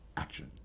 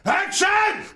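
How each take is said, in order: First: It is said softly and intimately. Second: It is shouted very loudly.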